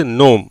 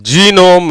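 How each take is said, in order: First: நோம் said softly, only nom; silent g. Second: ஜீனோம் said with a hard ji at the start; wrong reading. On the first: Teacher correcting ஜீனோம் to the right நோம். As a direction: drop the g and say நோம். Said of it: "அது ஜீனோம் கிடையாது". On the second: Teacher showing the wrong ஜீனோம் to avoid. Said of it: "ஜீனோம் இல்ல". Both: Shown as a demonstration.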